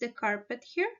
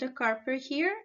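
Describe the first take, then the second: First: The final T of carpet is pronounced. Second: The final T of carpet is dropped. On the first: The speaker calls it right. "the correct form is" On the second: The speaker calls it wrong. "Sebastian did not pronounce the final T at the end of the word carpet"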